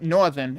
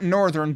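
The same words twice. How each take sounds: First: It is said in a put-on local accent. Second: It is said in a neutral, everyday accent. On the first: The speaker calls it right. "but northern" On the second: The speaker calls it wrong. "not northern"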